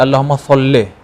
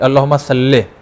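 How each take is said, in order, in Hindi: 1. 'salle' में s एक भारी, emphatic s है। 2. 'salle' में s एक सामान्य, हल्का s है। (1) "फिर एक में है एस ओ" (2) "एक में है एस A double L E"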